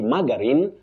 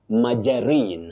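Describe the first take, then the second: First: The middle consonant is a hard G sound. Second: The middle consonant is a soft J sound. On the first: The speaker calls it wrong. "you don't say margarine" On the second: The speaker calls it right. "the G takes the sound J"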